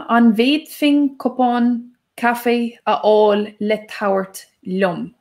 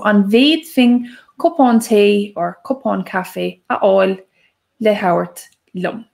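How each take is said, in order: First: Said in the usual way. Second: Slowly and clearly, each word set apart; careful slow second take; slower repeat. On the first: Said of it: "that sounds quite long". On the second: Shown as a demonstration. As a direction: say it again slowly for learners. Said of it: "I'll say it again".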